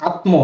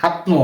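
No difference in how they are said.

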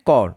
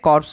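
First: The p and s sounds are silent. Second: The p and s sounds are pronounced. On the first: The speaker calls it right. "এর উচ্চারণ ঠিকঠাক হচ্ছে কর। পি এবং এস এখানে silent থাকবে" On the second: The speaker calls it wrong. "অনেকে উচ্চারণ করেন এটাকে কর্পস বলে, কিন্তু এটা ভুল উচ্চারণ"

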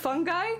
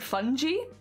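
First: The word ends sounding like 'guy'. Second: The word does not end sounding like 'guy'. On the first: The speaker calls it right. "it has to be fungi because otherwise all the fungi jokes where it's like, I'm just a fun guy" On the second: The speaker calls it wrong. "they call it fungi"

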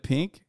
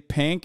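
First: The word is said with a standard vowel. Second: The word is said with a Utah vowel. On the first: "instead of pink" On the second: "Mountain accent, Utahns say pink"

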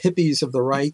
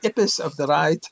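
First: It is said in the speaker's ordinary accent. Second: It is said in an imitated Russian accent.

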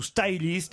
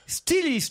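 First: The name is pronounced with English sounds. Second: The name is pronounced with French sounds.

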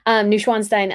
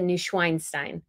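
First: The middle syllable sounds like 'schwan'. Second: The middle syllable sounds like 'schwein'. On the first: The speaker calls it right. "So Schwan" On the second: The speaker calls it wrong. "because I said Neuschweinstein, and Schwein sounds more like swine pig"

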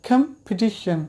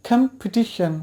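No difference in how they are said.

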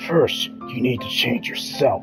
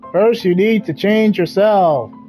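First: It is said in a deep, raspy voice. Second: It is said in a plain, ordinary voice.

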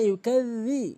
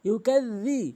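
The two takes are said the same way.

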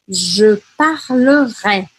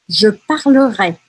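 First: It is said slowly, pausing between syllables. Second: It is said at a normal, connected pace.

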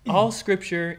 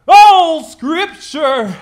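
First: It is read in a plain reading voice. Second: It is read in a televangelist preacher voice.

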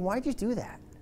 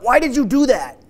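First: It sounds curious and gentle. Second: It sounds accusing and harsh.

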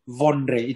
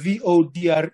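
First: It is said with an n before the d. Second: It is said without a nasal before the d.

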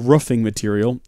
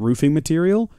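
First: Roof has a short vowel, like woof. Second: Roof has a long oo vowel. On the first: The speaker calls it wrong. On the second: The speaker calls it right.

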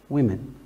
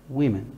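The two takes are said the same way.

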